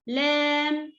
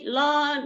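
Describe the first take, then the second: First: The l sounds light, tongue flat. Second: The l sounds heavy, tongue not flat. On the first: The speaker calls it right. "light letter. Make your tongue flat" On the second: The speaker calls it wrong. "Don't say lam"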